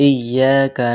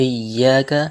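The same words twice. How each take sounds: Both takes have the same delivery.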